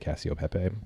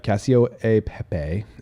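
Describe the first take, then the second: First: The middle 'e' is dropped between the words. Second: The middle 'e' is pronounced between the words. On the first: This is how it is said in America. "In America, we just say" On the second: This is how it is said in Italy. "is how they actually pronounce it"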